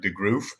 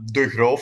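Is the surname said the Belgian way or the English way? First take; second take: English; Belgian. First: The surname is said the English way. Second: The surname is said the Belgian way. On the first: The speaker calls it wrong. "in the English uh, speaking world, they always pronounce it like" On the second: The speaker calls it right. "is actually how you pronounce my my uh, last name"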